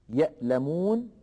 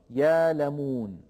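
First: Said in the usual way. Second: يالمون with a long a, no hamza; Warsh reading. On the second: Shown as a demonstration. Teacher sums up Warsh's reading of يالمون. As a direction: say يالمون as yaalamoon. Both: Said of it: "يقرأها ورش يالمون".

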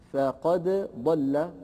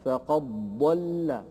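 First: "فقد ضل" with the dal sounded before ض; slow "فقد ضل", dal and ض kept apart; before assimilation. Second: "فقد ضل" with the dal merged into doubled ض; slow "فقد ضل", qaf straight into a held ض; after assimilation. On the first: ("فقد ضل" بإظهار الدال) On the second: ("فقد ضل" بإدغام الدال في الضاد) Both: Shown as a demonstration. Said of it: "تصبح بعد الإدغام".

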